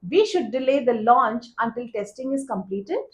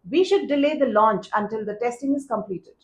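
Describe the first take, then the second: First: The voice rises at the end. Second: The voice falls at the end. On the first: It sounds like a request for approval. The speaker calls it wrong. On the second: It sounds like a recommendation. The speaker calls it right.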